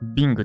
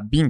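First: The word ends with a g sound. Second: The word ends without a g sound. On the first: "グー発音していいんですよね" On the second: "G って発音してないときあるけれど"

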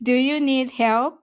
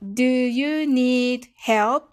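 First: It is said fast. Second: It is said slowly.

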